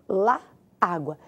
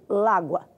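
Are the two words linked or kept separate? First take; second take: separate; linked. First: The two words are kept apart. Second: The two words run together into one. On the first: "Da maneira que eu falei para você, sim" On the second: "A gente acabaria unindo o lá com o a"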